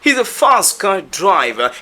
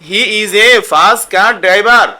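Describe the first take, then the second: First: The t and r sounds are dropped. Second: The t and r sounds are fully pronounced. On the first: The speaker calls it right. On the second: The speaker calls it wrong.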